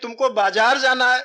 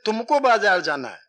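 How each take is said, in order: First: The stress falls on the word बाजार. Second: The stress falls on the word तुमको. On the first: You will go to the market and nowhere else. "बाजार जाओगे और कहीं नहीं जाओगे" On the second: Nobody else will go, only you. "अर्थात कोई दूसरा नहीं जाएगा, तुम जाओगे"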